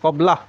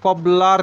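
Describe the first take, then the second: First: The final r sound is dropped. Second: The final r sound is pronounced. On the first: The speaker calls it right. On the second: The speaker calls it wrong. "কবলার নয়"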